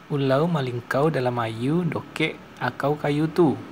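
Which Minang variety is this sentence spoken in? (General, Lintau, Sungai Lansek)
Sungai Lansek. Final r and l become an 'au' sound. "Sementara bahasa Sungai Lansek"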